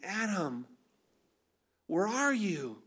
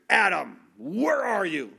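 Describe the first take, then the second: First: The question sounds gentle and caring. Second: The question sounds frustrated and harsh. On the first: The caller lovingly seeks the one who is hiding. "Completely different tone, same words, different tone" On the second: The caller is angry at the one being sought. "thought of God is just frustrated"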